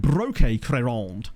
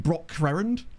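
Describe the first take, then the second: First: "Broque Crerand" said with a French flourish; French-style pronunciation. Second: Said in the usual way. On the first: Shown as a demonstration. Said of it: "He could not sound more French". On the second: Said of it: "I guess it'd be".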